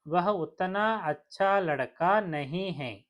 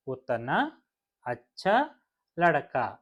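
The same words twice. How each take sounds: First: Said in the usual way. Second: ఉత్తనా, అచ్చా, లడకా each said apart with its final aa marked; word by word. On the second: Shown as a demonstration. Teacher showing learners that ఉత్తనా అచ్చా లడకా end in aa. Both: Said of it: "ఆతో end అవుతున్నాయి".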